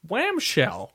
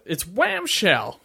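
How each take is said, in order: First: Put-on "Whamshell" high and falling, kid voice; the kid announces "Whamshell"; kid saying Whamshell. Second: Put-on It's Whamshell said slow and high, like the kid; slow repeat of Whamshell. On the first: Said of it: "this kid is like". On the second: Shown as a demonstration. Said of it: "I'm sorry, what?".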